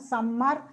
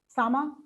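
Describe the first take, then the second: First: The m sound is held long and doubled. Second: The m sound is short and single. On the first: The speaker calls it wrong. "we tend to pronounce them" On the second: The speaker calls it right. "That's the way they pronounce in English"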